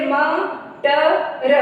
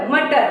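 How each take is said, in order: First: मटर said letter by letter, slowly; sounded out. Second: Said in the usual way. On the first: Shown as a demonstration. Teacher showing how मटर is read, sounded out letter by letter. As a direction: draw out म, ट, र as separate sounds. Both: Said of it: "तो इसको कैसे पढ़ेंगे?".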